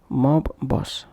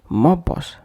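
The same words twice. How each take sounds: First: Each b sound is released separately. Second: The two b sounds merge into one. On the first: The speaker calls it wrong. "instead of mob boss" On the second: The speaker calls it right. "pronounced as mob boss"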